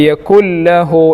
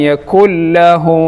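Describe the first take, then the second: No difference in how they are said.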